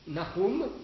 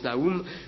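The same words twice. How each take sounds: First: The name is said with Hebrew pronunciation. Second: The name is said with an 'oo' vowel. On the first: "si on prononce à la manière hébraïque" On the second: "des Bibles qui ont mis O U pour qu'on prononce Nahum"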